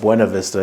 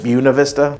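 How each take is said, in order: First: The name is said the way it looks spelled. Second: The name is said in the local pronunciation. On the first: This is how outsiders say it. The speaker calls it wrong. "people that don't know that are going to call it Buena Vista because you know that's how it's spelled" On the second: This is how residents say it. The speaker calls it right. "as the locals call it"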